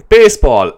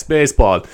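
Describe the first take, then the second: First: Baseball, called out high and loud; baseball, announced like a title; announcing the word. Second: Said in the usual way. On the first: Acted. Announcing the next topic word.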